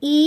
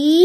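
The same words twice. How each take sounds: First: "ই" held only briefly; a short, separate "ই"; short vowel. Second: "ই" drawn out long; a lengthened, sustained "ই"; long vowel. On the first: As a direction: keep "ই" short. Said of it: "কম সময় হবে". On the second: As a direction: stretch and hold "ই". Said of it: "দীর্ঘ এর উচ্চারণটা একটু দীর্ঘ হবে". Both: Shown as a demonstration.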